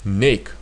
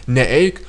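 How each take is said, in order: First: The prefix joins smoothly with no extra vowel. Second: An extra separate e sound follows ne. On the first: The speaker calls it right. "There's only smooth neik" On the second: The speaker calls it wrong. "There cannot be such things in Lithuanian like neeik"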